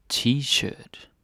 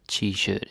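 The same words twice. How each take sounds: First: T-shirt in a Danish accent. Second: Said in the usual way. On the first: Shown as a demonstration. Teacher showing learners the word T-shirt, Danish accent. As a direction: say T-shirt the Danish way, drawn out and higher. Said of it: "say it with the Danish accent". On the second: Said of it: "t-shirt is the same".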